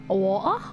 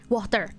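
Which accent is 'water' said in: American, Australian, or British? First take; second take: British; American. First: It is said with a British accent, no T. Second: It is said with an American accent, R pronounced. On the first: "British, I think they said water, wa wa water, water, water without the T" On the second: "American way of saying it"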